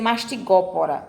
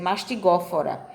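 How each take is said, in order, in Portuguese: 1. A consoante antes das últimas sílabas é um P. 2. A consoante antes das últimas sílabas é um F. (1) "eu não vou dizer mastigópora" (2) "eu vou dizer mastigófora"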